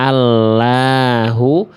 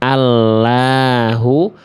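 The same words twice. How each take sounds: First: The L sounds thin and light. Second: The L sounds thin and light.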